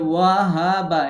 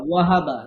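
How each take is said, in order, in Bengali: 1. হরকতগুলো লম্বা করে টেনে বলা হয়। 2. হরকতগুলো ছোট ও দ্রুত করে বলা হয়। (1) "এরকম না" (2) "দ্রুত বলবেন"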